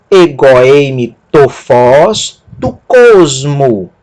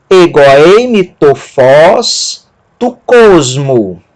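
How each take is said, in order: First: Egoeime tofós tu cosmo slow but joined up; smoother Greek reading. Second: Egoeime tofós tu cosmo very slowly, syllable by syllable; slow Greek demo. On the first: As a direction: read Egoeime tofós tu cosmo as one phrase. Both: Shown as a demonstration.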